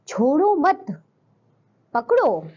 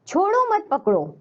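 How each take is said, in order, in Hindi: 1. शब्द mat के बाद विराम है। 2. यह बिना किसी विराम के सीधे एक साथ कहा जाता है। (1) "छोड़ो मत पकड़ो यानी कि पकड़ना है" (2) "विराम चिन्ह नहीं लगा तो हमें नहीं पता छोड़ना है या पकड़ना है"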